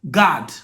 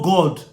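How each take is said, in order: First: The vowel sounds like 'ah'. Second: The vowel sounds like 'aw'.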